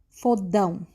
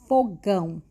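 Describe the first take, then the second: First: The middle consonant is a D sound. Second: The middle consonant is a G sound. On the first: The speaker calls it wrong. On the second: The speaker calls it right.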